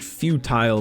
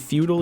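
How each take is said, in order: First: The word is said with a British pronunciation. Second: The word is said with an American pronunciation. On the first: "might be more like the British pronunciation of that" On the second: "Do we do we just say feudal here in the States?"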